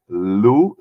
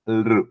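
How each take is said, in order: First: It is said as a plain l with no r. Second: It is said with an r sound after l. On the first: "either you can say lu, simple lu" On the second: "or lr"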